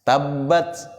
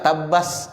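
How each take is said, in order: First: The final t is released with some breath. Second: The final t turns into a hissing sound. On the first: The speaker calls it right. "huruf yang masih dialirkan napas" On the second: The speaker calls it wrong. "Tapi jangan juga tabas"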